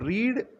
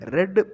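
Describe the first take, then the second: First: It is said with the present-tense pronunciation. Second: It is said with the past-tense pronunciation. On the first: The action happens habitually now. "read present tense" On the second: The action happened in the past. "read past tense"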